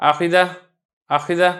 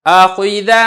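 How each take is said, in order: First: آخیدہ clipped short, the vowel on خ nearly lost; faulty hidden-vowel آخیدہ; swallowed vowel. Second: آخیدہ, louder, every vowel crisp and full; emphatic correct آخیدہ; clear full vowels. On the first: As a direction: rush آخیدہ so خ sounds almost silent. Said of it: "یہ شبہ پیدا ہو رہا ہے کہ پتہ نہیں خا متحرک ہے". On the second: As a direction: pronounce آخیدہ boldly with each vowel distinct. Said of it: "تینوں کو آپ خوب واضح اور ظاہر کر کے پڑھیں". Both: Shown as a demonstration.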